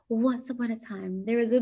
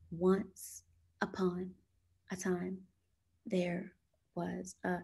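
First: It is read in a sweet, soft voice. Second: It is read flatly, word by word, like a robot. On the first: The speaker calls it right. "in a sweet, soft voice" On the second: The speaker calls it wrong. "You start reading like a robot"

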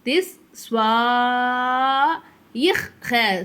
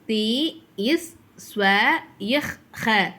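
First: The vowel is stretched out long, with elongation. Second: The vowel is said short, without elongation. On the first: "அதே பெரிய மது கொடுத்துருக்காங்களா? அப்போ நம்ம எப்படி சொல்லணும்?" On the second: "பெரிய மத்து இல்லாமல் எப்படி சொல்லுவோம்"

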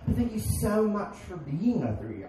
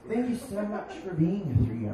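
First: Spoken in a breezy, barista-style voice. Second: Spoken with a Hispanic accent. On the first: The speaker calls it wrong. "I'm using my Drew Barrymore voice" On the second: The speaker calls it right.

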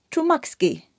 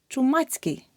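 First: A 'k' sound comes before the ending. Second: A 'ts' sound comes before the ending. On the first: The speaker calls it wrong. "Неправильно" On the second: The speaker calls it right. "Рука, ручка у руці"

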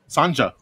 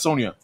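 First: The middle consonant is a hard J sound. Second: The middle consonant is a Y sound. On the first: The speaker calls it right. "Sanja, that is what it is" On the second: The speaker calls it wrong. "not Sonia"

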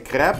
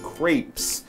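First: It has a French pronunciation without final s. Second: It has an American English pronunciation. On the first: "French people would say crepe" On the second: "the sort of English-American English pronunciation"

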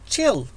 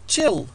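Both takes have the same delivery.

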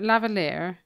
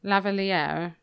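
Both takes have the same delivery.

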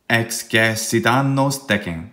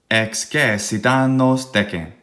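The two takes are said the same way.

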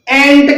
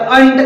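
First: The ending is said with an 'e' vowel. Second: The ending is said with an 'u' vowel. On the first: The speaker calls it wrong. "एंट करायचं नाही" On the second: The speaker calls it right. "तर अंट करायचं आहे"

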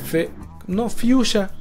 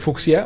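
First: It is said with a 'sh' sound, like fyoo-sha. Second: It is said with a 'ks' sound, like fook-see-ah. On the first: The speaker calls it right. "así como, como se escucha, como suena en español" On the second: The speaker calls it wrong. "no como se escribe mamonamente fucsia o correctamente"

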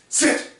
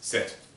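First: The commands are shouted loudly. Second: The commands are said in a calm voice. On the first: The speaker calls it wrong. "he's just yelling at them" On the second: The speaker calls it right. "the same tone of voice that I'm using now"

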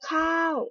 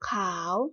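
First: The word is said with a falling tone. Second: The word is said with a rising tone.

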